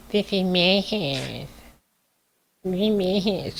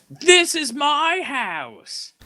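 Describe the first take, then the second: First: High, slow whiny toddler imitation; mocking whiny toddler voice, much higher. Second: High, slow whiny mock yell; mocking Paige's whiny catchphrase, high and slow; mimicking Paige. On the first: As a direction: whine it like a spoiled toddler. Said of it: "Sound like a toddler". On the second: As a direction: whine it like a petulant child. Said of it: "the only thing I've ever heard her say".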